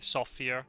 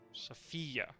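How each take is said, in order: First: The stress is on the first syllable. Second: The stress is on the second syllable. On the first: This is the English way of saying the name. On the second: This is the Spanish way of saying the name.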